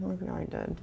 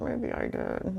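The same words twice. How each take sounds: First: Far softer, trailing almost to a whisper; near-whispered admission. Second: Much softer, quietly conceding; sheepish admission. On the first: Giving in to her own memory, a fading near-whisper. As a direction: let it fade to a barely voiced concession. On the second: Admitting to herself she was foolish too, softly conceding. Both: Acted.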